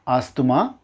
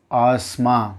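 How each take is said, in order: First: ஆஸ்துமா as AAS-thu-maa, three syllables; mispronounced asthma. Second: ஆஸ்மா as AAS-maa, two syllables; correct asthma. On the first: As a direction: add thu inside ஆஸ்துமா. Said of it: "not ஆஸ்துமா". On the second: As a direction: go straight from S to M in ஆஸ்மா. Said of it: "it's ஆஸ்மா". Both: Shown as a demonstration.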